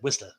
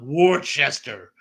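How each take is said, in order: First: The name is said short and clipped, locally. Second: The name is said fully, as it is spelled. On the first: The speaker calls it right. "you have to say it like that" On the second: The speaker calls it wrong. "not Worcester"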